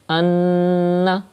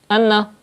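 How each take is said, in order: First: The nasal n sound is held long. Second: The nasal n sound is cut short. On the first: The speaker calls it right. "pronounce noon mushaddad with gunna, like anna" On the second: The speaker calls it wrong. "that's not correct, because you are not doing gunna"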